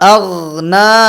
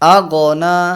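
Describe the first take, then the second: First: The gh sound is held smoothly without bouncing. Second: The gh sound ends with a short bouncing echo. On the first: The speaker calls it right. "গয়নকে একটু ধরে রেখে আওয়াজ চালু রেখে" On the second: The speaker calls it wrong. "কলকালার আওয়াজ নিয়ে আসি, ... এটা ভুল আওয়াজ"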